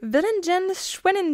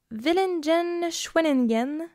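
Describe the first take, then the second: First: Villingen-Schwenningen said high in one go, falling at the end; second pronunciation attempt. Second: Villingen-Schwenningen sounded out slowly, pitched up, ending on a rise; careful foreign-name attempt. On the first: Shown as a demonstration. Host retrying the German name for co-host, high Villingen-Schwenningen with falling end. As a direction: take a run at Villingen-Schwenningen, pitched up then dropping. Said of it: "Je ne sais pas si je le prononce".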